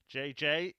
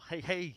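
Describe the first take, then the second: First: The initials are said as English letter names. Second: The initials are said as Spanish letter names.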